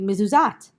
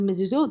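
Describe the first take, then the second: First: The last syllable has an a vowel. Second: The last syllable has an o vowel. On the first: It follows the bare written letters. "they might read mezuzat" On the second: It follows the traditional vowels. "instead of mezuzot"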